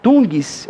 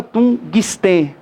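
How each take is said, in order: First: "tungis" run together in one emission of voice; no break between "tun" and "gis" in "tungis"; natural joined syllable. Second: "tungsten" broken as tun, pause, guis-tê; wrong syllable split. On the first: Teacher showing natural speech, "tungis" said as one joined sound. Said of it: "A gente fala naturalmente". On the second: Teacher showing what nobody says, "tungsten" split as tun... guistê. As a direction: separate "tun" from the rest of "tungsten", slowly. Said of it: "Ninguém fala". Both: Shown as a demonstration.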